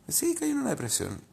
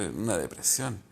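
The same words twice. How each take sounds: First: The word Sí lifted much higher, then falling. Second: Said in the usual way. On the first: Shown as a demonstration. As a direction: admit it high and rueful, sliding down. (confesión aguda y descendente)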